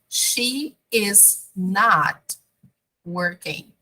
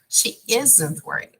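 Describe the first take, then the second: First: Every word is said in full, uncontracted. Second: The word 'not' is shortened onto 'is'. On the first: "the long form" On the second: "even more different"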